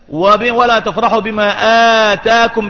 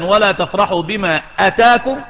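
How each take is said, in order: First: The first vowel of the last word is long. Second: The first vowel of the last word is short. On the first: What was given to you. "بالمد" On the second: What came to you. "بدون مد"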